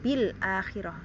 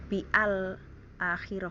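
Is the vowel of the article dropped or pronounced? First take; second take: dropped; pronounced. First: The article's vowel is dropped and linked. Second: The article's vowel is pronounced separately. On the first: The speaker calls it right. "kita nggak baca bil bi akhirah tapi bil" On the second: The speaker calls it wrong.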